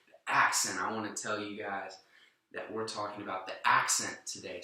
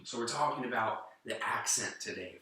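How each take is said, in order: First: Preacher-style emphasis on "The accent."; church preaching voice. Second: Said in the usual way. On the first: Shown as a demonstration. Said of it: "if I was in a church setting". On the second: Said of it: "I would say".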